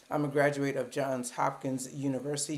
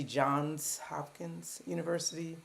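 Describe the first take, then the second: First: Said in the usual way. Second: Slow, with a clear S sound at the end of "Johns"; careful S in Johns. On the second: Shown as a demonstration. Correcting viewers who drop the S, she slowly sounds out "Johns". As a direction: say "Johns" with the S sounded out, not "John". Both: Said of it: "Don't forget that S".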